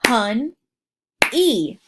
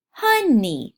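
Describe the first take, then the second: First: "Hun-e" in two separate beats; split into syllables. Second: Said in the usual way. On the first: Shown as a demonstration. Teacher clapping "Hun-e" out for young learners. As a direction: clap "Hun-e" out in two parts. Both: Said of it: "Let's clap that one out".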